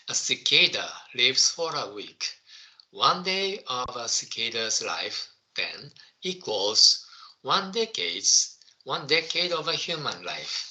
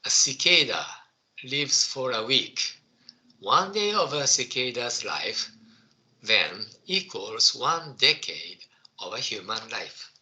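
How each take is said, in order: First: Slowly, word by word, for the class; slow school dictation. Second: Careful second reading aloud; slow school dictation. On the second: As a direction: read it once more, clearly. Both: Shown as a demonstration. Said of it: "Okay, I will read it again".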